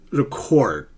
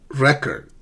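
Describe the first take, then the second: First: The stress is on the second syllable. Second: The stress is on the first syllable. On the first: It is a verb. "which is a verb" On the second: It is a noun. "It's a noun"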